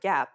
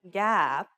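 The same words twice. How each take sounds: First: The vowel is said short and normal. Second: The vowel is drawn out long. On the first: "say the word gap normally" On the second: "you were to lengthen the vowel"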